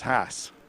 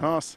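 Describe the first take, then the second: First: The name is said with an American pronunciation. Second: The name is said without an American pronunciation. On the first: The speaker calls it right. "if you pronounce it with an American accent, as Gene Haas does, then it's Haas" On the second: The speaker calls it wrong. "It was always pronounced Newman Haas"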